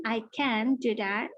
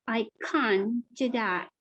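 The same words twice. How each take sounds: First: Slow British "can" with a short vowel and clear n; British positive can. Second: Slow British "can't" with a broad ah; British negative can't. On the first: Teacher demonstrating for learners, slow British "can". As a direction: spell out "can" slowly in a British accent. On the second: Teacher demonstrating for learners, slow British "can't". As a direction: stretch "can't" to an ah vowel, British style. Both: Shown as a demonstration.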